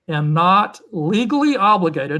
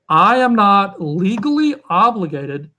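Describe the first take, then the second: First: It is said at normal speaking speed. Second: It is said slowly and deliberately.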